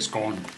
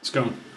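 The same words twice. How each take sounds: First: The word is said in an English accent. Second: The word is said in an American accent. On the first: "Then I would say scone" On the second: "I'm just not saying it with an English accent"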